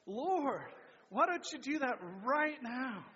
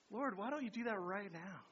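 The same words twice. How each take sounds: First: Louder group echo; congregation repeating aloud. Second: Said in the usual way. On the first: Real, not acted. Church repeats the prayer line louder together. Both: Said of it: "let's say that".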